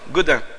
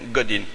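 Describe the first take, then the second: First: The name is said with a French pronunciation. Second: The name is said with an English pronunciation. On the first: "c'est écrit la même chose que moi" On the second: "Mais prononcé en anglais"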